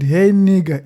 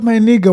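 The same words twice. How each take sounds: First: Attacking tone. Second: Friendly greeting. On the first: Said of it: "in a way where I had done something wrong". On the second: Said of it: "because he's my friend". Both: Retold or imitated.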